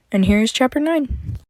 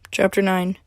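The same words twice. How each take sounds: First: Bright, upbeat intro to the chapter; excited announcement. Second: Said in the usual way. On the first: Shown as a demonstration. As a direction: announce it with a lift.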